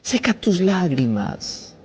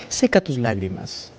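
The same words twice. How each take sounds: First: Seca tus lágrimas drawn out slowly, every word stretched; a slow, soothing command; slow and tender. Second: Said in the usual way. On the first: Acted. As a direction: lay each word down gently. Comforting the listener mid-sermon.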